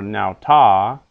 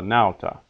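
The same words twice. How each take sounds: First: The stress is on the second syllable. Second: The stress is on the first syllable. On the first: The speaker calls it wrong. "Not silva or nauta" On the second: The speaker calls it right. "Words of two syllables are accented on the first syllable"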